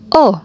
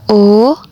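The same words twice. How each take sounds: First: The vowel carries the fourth tone. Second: The vowel carries the second tone. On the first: "nada yang keempat" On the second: "nada yang kedua"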